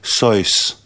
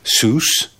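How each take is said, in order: First: The name is said the German way. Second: The name is said the English way, rhyming with juice.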